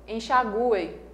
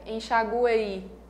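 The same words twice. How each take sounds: First: The U vowel sound is the strongest. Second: The I vowel sound is the strongest. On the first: "Se eu der mais força para o U" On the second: "Se eu desse mais força para o I"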